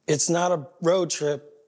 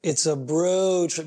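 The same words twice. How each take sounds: First: "road" stressed as the word being rejected. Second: "bro" drawn out slowly as the punchline; slow, weighted "bro", falling after; stress on bro. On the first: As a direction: set up the pun with weight on "road". Sets up the bro pun. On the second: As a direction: stretch "bro" to land the pun. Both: Shown as a demonstration.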